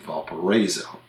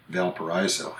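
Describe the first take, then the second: First: "Valparaiso" with "ray" in it; Americanized "Valparaiso", stressed syllable like "ray"; Indiana local pronunciation. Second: "Valparaiso" with "rye" in it; Spanish-derived "Valparaiso", AI sounded like "eye"; original Spanish-style pronunciation. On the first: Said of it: "but they pronounce it". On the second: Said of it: "but they pronounce it Valparaiso". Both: Shown as a demonstration.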